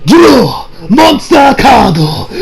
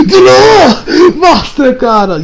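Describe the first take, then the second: First: Slow, dramatic shouted duel call, imitating the clip; anime duel shout. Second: Higher and slower, even more dramatic anime shout; bigger duel shout. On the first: Anime hero calling the duel to start, drawn-out shout. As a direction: belt it like an anime duelist drawing a card. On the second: Retold or imitated. Anime hero repeating the duel call, higher drawn-out shout. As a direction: top the first call, stretch every word. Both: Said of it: "watched the clip".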